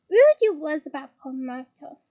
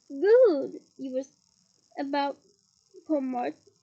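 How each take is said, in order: First: Louder, taunting sing-song. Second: Slow and drawn out, word by word; slow drawl. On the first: Acted. Peeves teases Hermione again, louder and mocking. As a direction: lean into it louder, teasing. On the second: Shown as a demonstration. Peeves taunts Hermione, slowly drawn out. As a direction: stretch out every word, taunting.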